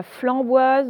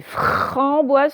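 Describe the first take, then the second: First: Flamboise, with l replacing the r; wrong fl. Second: Framboise slowly with a long rolled-out fr; correct fr. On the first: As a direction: mispronounce framboise as flamboise. (flamboise, un l à la place du r) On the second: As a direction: stretch the r in framboise. (framboise lentement, « fr » bien appuyé) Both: Shown as a demonstration. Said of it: "ce n'est pas flamboise".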